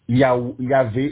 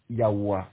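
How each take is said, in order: First: The middle consonant is a v sound. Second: The middle consonant is a w sound. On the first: The speaker calls it wrong. "et encore mieux" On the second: The speaker calls it right. "encore mieux"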